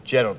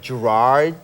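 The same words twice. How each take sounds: First: The name is said in a Scottish accent. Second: The name is said in an American accent. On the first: "people in Scotland, they go Gerard" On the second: "So you guys say Gerard, you know, like Gerard"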